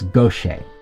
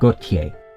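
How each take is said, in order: First: The name has a Louisiana French pronunciation. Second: The name has a standard France French pronunciation. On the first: "while in Louisiana French, it's" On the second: "In Metropolitan French, it's pronounced"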